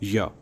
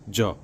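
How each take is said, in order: First: It is said with a y sound. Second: It is said with a j sound. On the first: The letter does not begin a word. "अन्यथा उसका उच्चारण होता है य" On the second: The letter begins a word. "जब य किसी शब्द का प्रथम अक्षर होता है तो उसका उच्चारण होता है ज"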